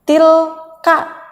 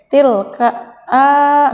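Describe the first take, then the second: First: The final vowel is short. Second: The final vowel is drawn out long. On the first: The speaker calls it right. "ka-nya dibaca kosor" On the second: The speaker calls it wrong. "nggak boleh tilka a"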